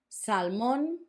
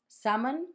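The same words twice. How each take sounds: First: It is said with a Spanish pronunciation. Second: It is said with an English pronunciation. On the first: "It's written the same, just different pronunciation" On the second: "It's written the same, just different pronunciation"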